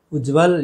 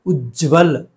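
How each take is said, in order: First: उज्जवल said as "ujval"; one quick j in उज्जवल; don't hold the ज of उज्जवल; wrong single j. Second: उज्जवल with held "jj" joined to v; double half j. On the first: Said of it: "ये गलत है". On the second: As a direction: say "uj-jval" for उज्जवल. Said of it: "ज दोनों आधे". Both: Shown as a demonstration.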